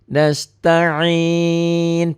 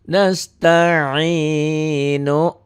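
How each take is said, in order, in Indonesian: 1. Berhenti pada konsonan setelah huruf hidup panjang. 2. Berakhir dengan huruf hidup pendek di akhir.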